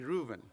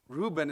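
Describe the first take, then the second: First: The middle consonant is a V sound. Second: The middle consonant is a B sound. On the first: The speaker calls it right. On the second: The speaker calls it wrong.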